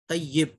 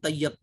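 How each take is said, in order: First: The vowel after the y sounds like i. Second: The vowel after the y sounds like a. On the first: The speaker calls it right. "या के नीचे जो है वो जेर है" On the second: The speaker calls it wrong. "तैयब बोलते हैं लोग"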